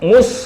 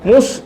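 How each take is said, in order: No difference in how they are said.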